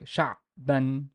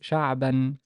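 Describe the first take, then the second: First: The ayn is cut off like a stop. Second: The ayn is held as a continuous sound. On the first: The speaker calls it wrong. "some people treat it as a stop. So they would go like" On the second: The speaker calls it right. "the Ain is basically a continuous letter. So it's"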